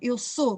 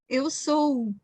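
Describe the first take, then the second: First: The O vowel has a medium length. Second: The O vowel is drawn out long. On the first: This is the usual Portuguese pronunciation. "Eu faço um som médio no O" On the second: This is how people from Porto say it. "no Porto, por exemplo, eles fazem ... fazem sempre os sons mais longos"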